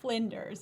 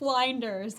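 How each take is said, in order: First: The first syllable rhymes with 'flint'. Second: The first syllable rhymes with 'blind'. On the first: The speaker calls it right. "It's Flinders University" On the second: The speaker calls it wrong. "I pronounced it Flinders. It's spelled like blinders"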